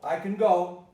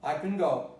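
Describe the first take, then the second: First: The word go carries the stress. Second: The same.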